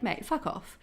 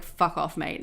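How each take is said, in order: First: "Mate, fuck off" said fond and teasing, "fuck" lifting; a friendly, loving insult; affectionate "Mate, fuck off". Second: "Fuck off" lower and louder, cold, then "mate" bitten off; a real brush-off, meant to hurt; hostile "Fuck off, mate". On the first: Explaining Aussie slang to viewers, affectionate teasing. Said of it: "one is very affectionate". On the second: Showing viewers the rude version, hostile and cold. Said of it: "a really bad thing to say". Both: Shown as a demonstration.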